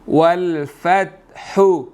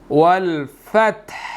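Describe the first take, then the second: First: The final word ends with a short u vowel. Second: The final word ends on a bare consonant. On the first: "हा पेश हु" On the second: "हा के ऊपर जो हरकत है वो साइलेंट हो जाएगी"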